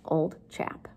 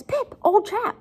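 First: Said in the usual way. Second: High-pitched alarmed appeal; Joe freaking out. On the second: Acted. Teacher voices Joe alarmed at Pip, high and anxious. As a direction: voice leaps up in mock alarm. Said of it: "he starts freaking out".

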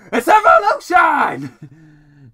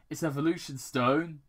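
First: Drawn-out, high, full-force yell; villainous shout. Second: Said in the usual way. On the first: Acted. Robotnik launches his drones with a triumphant shout. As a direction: bellow it slowly like a triumphant villain.

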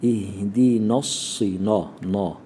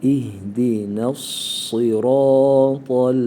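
First: Na said thick, like the heavy sad; wrong thick na. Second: İhdina with thin n, sıratal with heavy s, chanted slowly; correct recitation. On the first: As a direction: imitate the mistake of thickening na. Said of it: "bazı arkadaşlarımız şöyle okur". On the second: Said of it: "nunu ince okuyacağız, satı kalın". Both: Shown as a demonstration.

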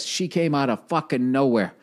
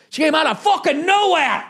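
First: Said in the usual way. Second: Disbelieving yell; exclaimed repeat. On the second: Shown as a demonstration. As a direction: blast the repeat like a punchline.

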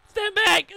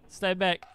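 First: High, loud urgent shout; shouted warning. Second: Said in the usual way. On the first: Real, not acted. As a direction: yell the warning. Warning about turret, urgent.

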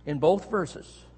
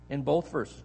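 First: "both" leaned on and the phrase slowed; slow, deliberate emphasis on "both"; stress on both. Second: Said in the usual way. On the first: Shown as a demonstration. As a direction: draw out "both verses", weighting "both". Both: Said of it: "put together without any explanation".

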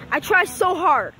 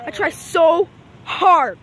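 First: Said in the usual way. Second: "I try so hard" stretched out very slowly; slow, drawn-out whine. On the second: Shown as a demonstration. Kid vlogger dragging out his complaint, very slowly. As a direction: drag out each word of "I try so hard" like a sigh.

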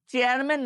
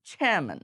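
First: চেয়ারম্যান with hard চ and sounded r; unaspirated ch. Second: চেয়ারম্যান as airy "chheh-man", r silent; aspirated ch. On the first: Teacher rejects the wrong form, চেয়ারম্যান with plain চ and r. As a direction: say চেয়ারম্যান the Bengali way, no puff, r pronounced. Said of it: "চেয়ারম্যান না বলে". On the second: Teacher gives the correct form, চেয়ারম্যান with aspirated ch. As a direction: start চেয়ারম্যান with a puff and drop the r. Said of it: "চ যুক্ত ছ দিয়ে বলতে হবে". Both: Shown as a demonstration.

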